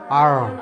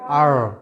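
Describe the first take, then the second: First: The letter is said with a final r sound. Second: The same.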